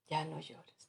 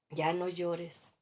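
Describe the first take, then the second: First: Said in the usual way. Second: "Ya no llores" muy lento y más fuerte; cliché insensible. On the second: Retold or imitated. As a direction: imita a quien manda callar el llanto, arrastrando las palabras. (consejo condescendiente muy lento) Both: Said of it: "A ver si te identificas".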